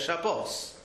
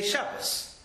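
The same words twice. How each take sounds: First: The stress is on the last syllable. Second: The stress is on the first syllable. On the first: This is the Hebrew form of the word. "The Hebrew Shabbos, every time it comes in the Torah" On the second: This is the Yiddish form of the word. "which is actually a wrong vowel and wrong stress"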